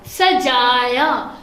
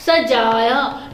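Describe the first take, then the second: First: Very slow सजाया with each syllable drawn out; slow model reading. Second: Said in the usual way. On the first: Shown as a demonstration. Teacher models the word सजाया slowly for students. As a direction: stretch सजाया for the class. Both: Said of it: "ये अलिफ या".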